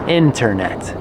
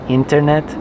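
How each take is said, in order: First: It is said with native English pronunciation. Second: It is said with Spanish-style pronunciation. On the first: The speaker calls it right. "Internet sounds so much better" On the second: The speaker calls it wrong. "No, guys, that's Spanish"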